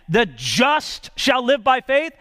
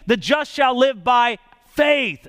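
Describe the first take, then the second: First: The stress is on the word just. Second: The stress is on the word faith.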